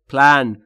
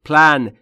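No difference in how they are said.

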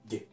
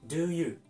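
First: The words are squeezed into one short syllable. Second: Both words are said fully and separately. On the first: "do と短く発音します" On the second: "do you と言ってもいいですが、ネイティブはこのように発話せず"

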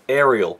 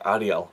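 First: The name is said with English vowels. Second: The name is said with Finnish vowels.

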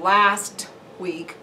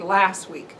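First: The t at the end of last is pronounced. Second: The t at the end of last is dropped. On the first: The speaker calls it right. "instead of last week" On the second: The speaker calls it wrong. "it will be last week"

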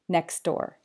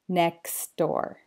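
First: The phrase is said at a fast pace. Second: The phrase is said at a slower pace. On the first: "then fast" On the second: "then slower"

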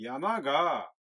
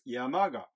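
First: The final particle is said with extra emphasis. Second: The final particle is said plainly, without emphasis. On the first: "がを強調してみましょう" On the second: "これが普通の言い方ですね"

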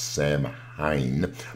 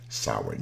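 First: Every written letter of the word is sounded out. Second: Some written letters of the word stay silent. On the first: The speaker calls it wrong. "The way it is spelled might suggest that it is pronounced Samhain" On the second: The speaker calls it right. "but actually it is pronounced as Samhain"

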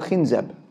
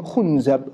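First: The first vowel is an i sound. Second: The first vowel is a u sound. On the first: "a shaytan by the name of" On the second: "with a dhamma"

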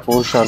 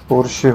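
First: The word ends with an 'ah' vowel. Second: The word ends with an 'ay' vowel. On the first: The speaker calls it wrong. "पोर्शा नहीं" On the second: The speaker calls it right. "पोर्शे होता है"

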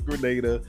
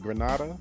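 First: The name is said unlike the Spanish city. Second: The name is said like the Spanish city. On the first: It names the Caribbean island. The speaker calls it right. "I think it's Grenada" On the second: It names a place in Spain. The speaker calls it wrong. "the way I was pronouncing it, Granada, that is a place in Spain"

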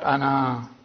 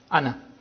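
First: The final vowel is long. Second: The final vowel is short. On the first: The word is read in pausal form. The speaker calls it wrong. "not ana" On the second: The word is read in continuous speech. The speaker calls it right. "as if it is hamza plus noon fatha"

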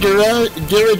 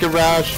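First: It is said with a British pronunciation. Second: It is said with an American pronunciation. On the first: "look at me, I'm British! I say garage" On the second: "instead of garage"

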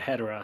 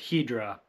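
First: The name is said with three syllables. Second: The name is said with two syllables. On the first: This is the speaker's own habitual way. "but I've always said Hedera" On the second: This is how the English dub says it. "In the English dub, they pronounce it Hedra"

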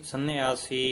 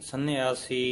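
Both takes have the same delivery.

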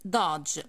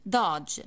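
First: The vowel is an open 'ah' sound. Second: The vowel is an open 'ah' sound.

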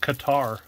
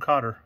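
First: The name rhymes with 'guitar'. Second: The name sounds like 'cotter', not like 'guitar'. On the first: The speaker calls it wrong. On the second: The speaker calls it right.

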